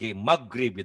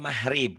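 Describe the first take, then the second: First: The middle consonant is a hard g. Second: The middle consonant is said as an h. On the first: This is how Sundanese speakers say it. "Kalau orang Sunda G-nya banget-banget G" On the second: This is how Javanese speakers say it. "Kalau orang Jawa mahrib kan G-nya ke H"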